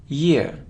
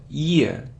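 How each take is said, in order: No difference in how they are said.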